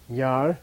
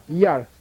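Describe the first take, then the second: First: Long Yar in a low tone. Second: Short strong Yar, pitched up. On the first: Teacher models the plain syllable for students, low-toned Yar. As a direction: keep Yar low and drawn out. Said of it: "Low tone, remember?". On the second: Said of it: "also gets strong". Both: Shown as a demonstration.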